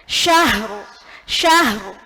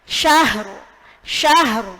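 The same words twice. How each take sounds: No difference in how they are said.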